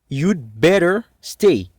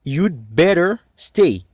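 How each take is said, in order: First: The word had is contracted to 'd. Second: The word had is contracted to 'd.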